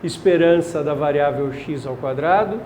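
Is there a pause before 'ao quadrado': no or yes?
no. It runs on without a pause before 'ao quadrado'. The variable is squared before taking the expected value.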